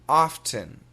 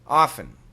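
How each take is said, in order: First: Careful, fully articulated American accent. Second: Relaxed, everyday American accent. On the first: "perfect American pronunciation" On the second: "Typical American pronunciation"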